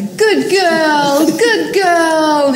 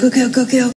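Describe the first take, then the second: First: It sounds patronizing, like talking to children. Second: It sounds plain and encouraging.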